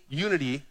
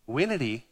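First: Said in the usual way. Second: "winity" with a W in place of the Y of unity; playful mispronunciation. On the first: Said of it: "you know that winity". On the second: Shown as a demonstration. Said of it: "winity bobbity boo".

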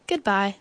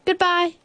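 First: Said in the usual way. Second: High bear voice; bear's farewell. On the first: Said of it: "said the moon". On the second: A narrator's reading. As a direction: call goodbye high as Bear. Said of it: "said Bear".

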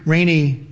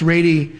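First: Said in the usual way. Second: Rainey slipped into "Rady"; mispronounced surname. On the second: Real, not acted. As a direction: say Rainey with a d in place of the n. Slip on surname, then corrected.

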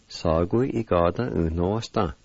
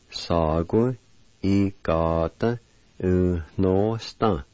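First: "Sa, gu, i, ga, da, u, no, sta" run together without pauses; whole word together. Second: "sa, gu, i, ga, da, u, no, sta" in measured groups with short pauses; parts joined carefully. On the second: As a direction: join "sa, gu, i, ga, da, u, no, sta" part by part. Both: Shown as a demonstration. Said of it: "And all together".

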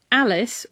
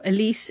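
First: Said in the usual way. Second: "Elise" stressed on the second syllable, long ee; physicist's pronunciation. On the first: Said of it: "or Elise as he calls it". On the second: Retold or imitated. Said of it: "as he calls it".

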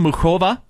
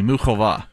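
First: Muchova said with a hard k, "moo-KOH-vuh"; first mispronounced name. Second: Muchova said with a breathy h, "moo-HOH-vah"; corrected pronunciation. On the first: Host stumbling over a tennis player's name, hard k. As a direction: Muchova with a k sound in the middle, before the correction. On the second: Host correcting her own mispronunciation on air, careful h sound. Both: Real, not acted. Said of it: "Muchova, excuse me".

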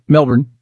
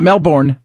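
First: Melbourne said the Australian way, as Mel-bun with a short weak end; right Melbourne. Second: Melbourne said the American way, as Mel-born with a full "born"; wrong Melbourne. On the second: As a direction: stretch the end of Melbourne into a clear "born". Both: Shown as a demonstration. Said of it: "not Melbourne".

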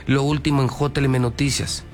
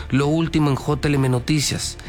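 Both takes have the same delivery.

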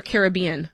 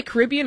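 First: Caribbean said care-ib-BEE-an; stress on third syllable. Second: Caribbean said ca-RIB-ee-an; stress on second syllable. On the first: Host offers the other option, Caribbean stressed on BEE. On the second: Host asks co-host how she says it, Caribbean stressed on RIB. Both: Shown as a demonstration. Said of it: "do you say Caribbean or Caribbean".

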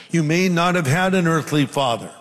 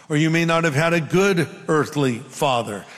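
First: Said in the usual way. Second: "good" picked out with emphasis; stress on GOOD. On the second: Real, not acted. Preacher qualifying his point to the congregation, stressing "good". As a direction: lean on "good", setting it against the line before. Repeats line, adding contrasted word.

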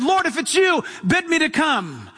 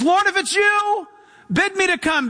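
First: Rising, eager call across the water; Peter's eager plea. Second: Much higher, pleading call; Peter's urgent plea. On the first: Peter calling to Jesus from the boat, eager plea. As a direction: call out to him, hopeful and bold. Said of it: "it was so radical that he said". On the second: Peter begging Jesus from the boat, high urgent plea. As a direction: reach out to him with a desperate hope. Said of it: "and he says". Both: Retold or imitated.

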